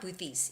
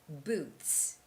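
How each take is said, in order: First: The word ends with an added extra syllable. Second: The word ends straight in an s sound. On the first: The speaker calls it wrong. "It's not boothies" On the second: The speaker calls it right. "just go right to the S sound"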